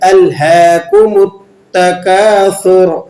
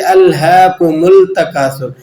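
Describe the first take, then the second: First: The m runs into a t sound. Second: The m runs into an l sound. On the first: The speaker calls it right. "मीम को आपने ता से जोड़कर पढ़ना है" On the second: The speaker calls it wrong. "मीम को लाम से मिलाकर पढ़ लेते हैं"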